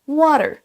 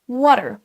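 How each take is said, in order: First: It is said with an American accent. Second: It is said with an American accent.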